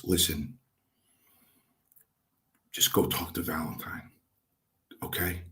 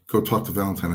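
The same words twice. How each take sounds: First: Softly, lower, as if taken aside; retold confidential coaxing, voice dropped; quiet aside. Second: Said in the usual way. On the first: Trainer walks rookie away with arm round him, quiet aside.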